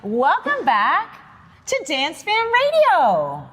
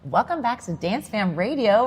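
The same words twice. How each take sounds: First: It is said with peppy cheerleader energy. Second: It is said in a calmer, normal way.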